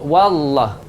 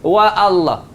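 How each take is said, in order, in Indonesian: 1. Kedua bagian itu tersambung tanpa hamzah. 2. Hamzah memisahkan kedua bagian itu. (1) "Hamzah tu tak ada bunyi dah" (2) "kalau salah wa Allah"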